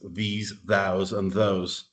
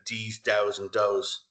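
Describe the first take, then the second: First: The words start with a clear th sound. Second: The words start without a th sound. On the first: The speaker calls it right. "you're corrected. No, it's these thous and those" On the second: The speaker calls it wrong. "if you're a Dublin kid, you'd say these thous and those. You won't pronounce the th"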